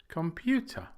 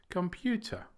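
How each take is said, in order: The two takes are said the same way.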